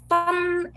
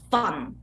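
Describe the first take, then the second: First: The syllable is said on a high level pitch. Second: The syllable is said on a very low pitch. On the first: "is a high tone" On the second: "really lowest tone"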